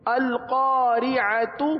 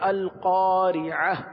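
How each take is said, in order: First: The word ends with a t sound. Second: The word ends with an h sound. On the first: The reading continues without stopping. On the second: The reader pauses at this word.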